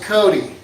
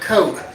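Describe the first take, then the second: First: The name has two syllables, ending in 'dee'. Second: The name has one syllable, ending in a 't'. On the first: The speaker calls it right. "they know how to pronounce the name. It's C O T E, but they know it's Cody" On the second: The speaker calls it wrong. "They know it ain't Coke"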